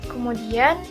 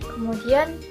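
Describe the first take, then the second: Both takes have the same delivery.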